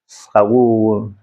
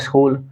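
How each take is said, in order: First: A vowel splits the opening s-k cluster: 'sakool'. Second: An 'i' vowel is added before the s: 'iskool'. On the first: "सकार होता ही नहीं है आधा, इसलिए सकूल बोलते हैं" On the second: "वो भी गलत उच्चारण होता है ... इस लगा दिया"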